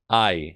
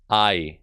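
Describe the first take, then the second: No difference in how they are said.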